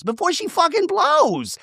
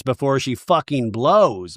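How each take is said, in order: First: Much higher, squeaky mock voice; hammed-up mimicry of Gina; mocking squeak. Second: Said in the usual way. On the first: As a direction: parrot it back in a silly high voice. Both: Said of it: "Gina says".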